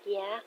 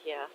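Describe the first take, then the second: First: Soft "Yeah" with a rising end; questioning. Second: Said in the usual way. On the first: Acted. Daughter checking with dad, softly questioning. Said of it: "Kaede's like". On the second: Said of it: "He's like".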